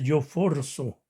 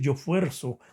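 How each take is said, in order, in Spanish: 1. La vocal tónica es una o simple. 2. La vocal tónica es el diptongo ue. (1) "No se dice yo forzo" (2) "así es la palabra yo fuerzo"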